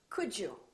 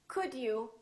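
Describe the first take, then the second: First: The d and y blend into a j sound. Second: The d and y sounds stay separate.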